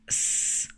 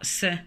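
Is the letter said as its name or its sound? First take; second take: sound; name. First: Only the letter's sound is said. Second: The letter's full name is said. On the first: The speaker calls it right. "So it is S" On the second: The speaker calls it wrong. "not S"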